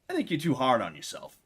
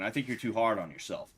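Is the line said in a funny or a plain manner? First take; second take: funny; plain. First: It is said in a funny, quirky manner. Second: It is said in a plain, ordinary manner. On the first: The speaker calls it right. "He said it kind of funny" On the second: The speaker calls it wrong. "He didn't even say it that way"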